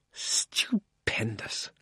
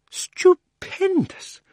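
First: Whispered slowly, in rapture; dreamy whisper. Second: Much higher, drawn-out cries of Stupendous; an old schemer who can't believe his luck; thrilled exclaiming. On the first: A narrator's reading. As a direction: breathe it out, lost in a daydream. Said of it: "in a happy dream". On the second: Acted. Earlier loud version.

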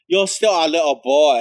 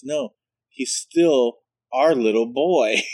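First: Higher, louder, fond repeat; mock flamboyant boyfriend. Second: Slow, drawn-out insistence; lightly voiced flamboyant boyfriend. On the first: Boyfriend repeating the line to Michael, hammed up. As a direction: coo it again, fonder and bigger. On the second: Boyfriend correcting the teller, lightly mimicked and slow. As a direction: insist gently, stretching every word. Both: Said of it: "He says".

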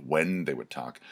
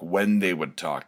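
First: Said in the usual way. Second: "when" given the weight at the start; stress on when. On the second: Shown as a demonstration. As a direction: lean on "when", the rest falls away. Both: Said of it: "That's another important one".

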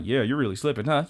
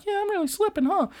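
First: Said in the usual way. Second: Very high, sheepish squeak; very high girl admitting she's losing; sheepish anime girl. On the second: Retold or imitated. Karen answering the taunt.

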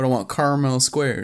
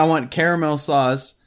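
First: "caramel" said CAR-mel; two-syllable caramel. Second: "caramel" said CARE-a-mel; three-syllable caramel. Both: Shown as a demonstration. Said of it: "you're saying".

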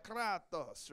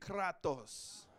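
First: Kratos said with a hammed-up Greek-Italian accent; Greek-Italian Nacho Libre accent. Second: Kratos said with a rolled Greek flourish; Greek accent. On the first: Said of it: "a little Greek and Italian, like a Nacho Libre accent". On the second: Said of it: "say it like you're Greek". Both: Shown as a demonstration.

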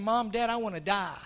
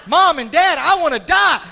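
First: Low, soft retold plea, no drama; subdued retelling. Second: Loud re-enacted outburst of a child; startling wake-up cry. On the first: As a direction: quote the child softly and low. First retelling of daughter's words. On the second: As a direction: burst into the parents' room shouting, acted. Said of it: "that'll wake a dad up like that".

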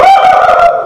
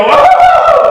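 First: Put-on the kids' copy of "Oh," shouted very high through a laugh; mimicked exasperated cry. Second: Hammed-up frustrated "Oh," shouted very high; exasperated cry. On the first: Kids copying their parent's frustration, high laughing mock cry. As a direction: echo the parent's wail, laughing. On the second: Parent hitting a wall in life, hammed-up high frustrated cry. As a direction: throw up your hands with a big mock wail.

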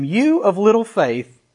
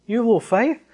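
First: Said in the usual way. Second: Rising, incredulous echo of a scolding; questioning disbelief. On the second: Retold or imitated. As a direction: question the rebuke, lightly puzzled. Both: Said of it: "Now wait a second".

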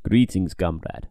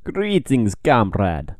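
First: Slower, lower mock Russian accent; Russian accent, a slower second attempt; second Russian accent try. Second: A bad Russian accent greeting a comrade; hammy Russian accent; terrible Russian accent. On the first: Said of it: "I can do a better one". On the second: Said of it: "that's a terrible Russian accent".

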